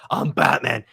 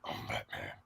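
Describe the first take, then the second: First: Lower, gravelly-free disguised growl; deep distorted Batman voice; voice changer Batman. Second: Batman growl. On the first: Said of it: "in the voice changer voice". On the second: Mimicking voice changer Batman. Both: Retold or imitated.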